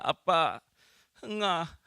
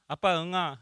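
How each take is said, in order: First: The child's plea sounds urgent and desperate. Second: The child's plea sounds ordinary and calm.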